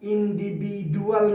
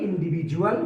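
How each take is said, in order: First: The consonant before 'ual' is a d sound. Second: The consonant before 'ual' is a j sound. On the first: The speaker calls it wrong. "ইন্ডিভিডুয়াল না হয়ে" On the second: The speaker calls it right. "ইন্ডিভিজুয়াল হয়ে গিয়েছে"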